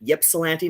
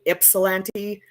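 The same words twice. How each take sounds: First: The first vowel sounds like the letter Y. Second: The first vowel sounds like the letter I. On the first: "not like a Y" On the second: "a lot of people will pronounce it like an I"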